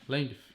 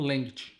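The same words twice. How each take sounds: First: It ends with an English 'th', tongue between teeth. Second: It ends with a Brazilian-style sound, no tongue 'th'. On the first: "tem que botar a linguinha" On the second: "ou length para os brasileiros"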